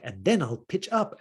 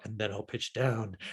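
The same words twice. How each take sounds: First: Pitching up. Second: Pitching down. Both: Retold or imitated. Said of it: "He's like".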